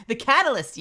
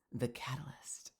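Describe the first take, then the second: First: High, loud dramatic declaration; loud exclaim. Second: Breathy hushed whisper. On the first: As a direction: announce it grandly. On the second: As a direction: whisper the word like a secret. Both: Pretend. Teasing repeat of Mel's word.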